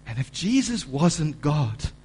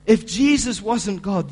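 First: Said in the usual way. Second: "If Jesus wasn't God" louder and higher, slow; emphatic preaching. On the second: Acted. Preacher repeating to the church, louder and slow. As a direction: hammer the "if" line home.

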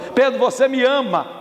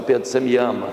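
First: High, pressing asking; insistent question. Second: Low, calm asking; gentle question. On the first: Jesus questions Peter a third time, insistent. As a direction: press the question with raised pitch. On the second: Jesus first questions Peter's love, gentle. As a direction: ask it tenderly and privately. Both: Acted.

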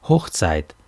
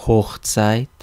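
First: HOCHZEIT as a statement, falling at the end; firm confirmation. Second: HOCHZEIT as a question, rising at the end; startled question. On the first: Man confirms it to the women, firm statement. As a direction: drop "Hochzeit" to a settled full stop. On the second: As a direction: lift the end of "Hochzeit" in disbelief. Startled women echo the word. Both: A narrator's reading.

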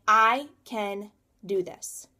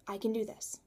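First: Slow and louder, each word pressed; determined. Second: Much softer, almost to herself; quiet repeat. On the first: Telling herself she can make it, slow and firm. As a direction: say it like a vow to yourself. Self-talk, first take. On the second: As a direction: let it fall to a private murmur. Self-talk, second take. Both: Retold or imitated.

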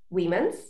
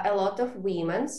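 First: "Women's" lifted into a clear questioning rise; question intonation. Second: Said in the usual way. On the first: Shown as a demonstration. Teacher repeating a student's problem word, questioning rise on "Women's". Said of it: "repeat problem word with a question intonation". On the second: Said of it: "your students say".

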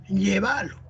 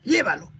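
First: "llévalo" stressed on the middle syllable, lle-VA-lo; Argentine verb stress. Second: Said in the usual way. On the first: Shown as a demonstration. Teacher imitating Argentinian verbs, "llévalo" stressed as lle-VA-lo. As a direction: say "llévalo" as lleválo, stretching the VA. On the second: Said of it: "No dicen".

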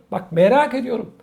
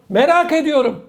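First: Said in the usual way. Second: "Merak ediyorum" pitched higher, with "merak" stressed; pointed wondering. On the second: Real, not acted. To his viewers, wondering aloud in disbelief. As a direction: ask it with incredulous emphasis.

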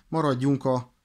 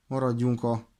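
No difference in how they are said.

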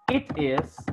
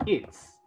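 First: Said in the usual way. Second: "its" as one contracted syllable; forma abreviada. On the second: Shown as a demonstration. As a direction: merge it and is into "its". ("its" contraído en una sílaba) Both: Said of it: "la abreviación de it is".

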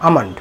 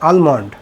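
First: আমন্ড as "AA-mand", silent l; correct pronunciation. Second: আলমন্ড as "AL-mond", l sounded; common mispronunciation. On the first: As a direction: open "aa", straight into m in আমন্ড. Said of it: "সঠিক উচ্চারণ হবে". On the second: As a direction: keep the l in আলমন্ড. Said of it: "আমরা বলে থাকি কি". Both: Shown as a demonstration.

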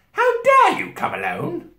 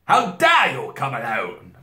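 First: Very high, loud and slow witch; imperious outrage at the top of the voice; terrible witch voice. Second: Loud, slow, higher indignant queen; a first try at a terrible queen, only moderately high; attempted queen voice. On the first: Witch rebuking the boy, high terrible voice. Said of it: "said the witch in a terrible voice". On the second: Queen rebuking the boy, a first-try terrible voice. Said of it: "that sounded not like it". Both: A narrator's reading.

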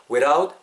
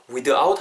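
First: "without" as "wi-duh-out"; wrong hard-d without. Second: "without" as a smooth "we-raut"; linked without. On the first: Teacher shows what not to say, "wi-duh-out" for "without". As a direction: break "without" up with an added "duh". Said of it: "without 하지 말고 without". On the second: Teacher corrects learners, smooth tapped "we-raut" for "without". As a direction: run "without" together with a tapped middle. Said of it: "without 정도로 발음하시면 되겠죠". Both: Shown as a demonstration.

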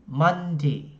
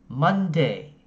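First: Monday ending in a short i, Mondi. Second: Monday ending in e, Monde. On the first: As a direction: close Monday on a clipped short i. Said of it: "âm y ngắn". (Monday đọc với âm y ngắn) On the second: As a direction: close Monday on a clear e. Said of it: "âm e". (Monday đọc với âm e) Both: Shown as a demonstration.

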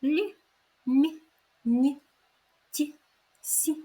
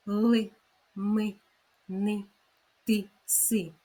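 First: Higher-pitched "лі, мі, ні, ті, сі" with palatalised consonants; gentle separate soft syllables "лі, мі, ні, ті, сі"; soft, tender consonants. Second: "ли, ми, ни, ти, си" with firm, non-palatalised consonants; hard consonants. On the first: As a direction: say "лі, мі, ні, ті, сі" tenderly, each consonant softened. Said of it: "ми вимовляються ніжно, м'яко". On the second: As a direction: say each of "ли, ми, ни, ти, си" clearly and hard. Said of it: "що їх звук чіткий, твердий". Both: Shown as a demonstration.

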